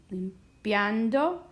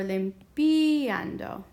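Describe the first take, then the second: First: "Limpiando" with "pian" as a single gliding syllable; IA as one sound. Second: "limpiando" pulled apart, lim-PEE-an-do; IA as two syllables. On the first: Teacher comparing two options, "Limpiando" with IA joined in one syllable. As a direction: say "Limpiando" slowly as lim-PYAN-do. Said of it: "one sound". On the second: Teacher offering the other option, "limpiando" split with a long PEE. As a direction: stretch and stress the "pi" of "limpiando", then a separate "ando". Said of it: "two syllables here". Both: Shown as a demonstration.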